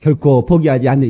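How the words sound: It is read flatly, like a textbook.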